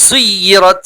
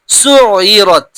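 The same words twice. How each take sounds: First: "সুইয়িরাত" with a gliding, held য়; doubled ya. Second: "সুইয়িরাত" with a throat-made ain replacing the y glide. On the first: Teacher showing how it reads, doubled y glide. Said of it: "এখানটা পড়লে বুঝতে পারবেন". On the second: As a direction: squeeze the middle of "সুইয়িরাত" from inside the throat. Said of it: "আইন গলার ভিতর থেকে". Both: Shown as a demonstration.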